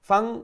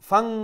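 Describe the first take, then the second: No difference in how they are said.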